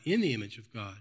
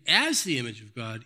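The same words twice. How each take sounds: First: Said in the usual way. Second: "as" lifted above the rest; stress on AS. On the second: Shown as a demonstration. Preacher recaps the chapter, stressing "as". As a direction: give the word "as" the weight. Contrasts two translations of phrase.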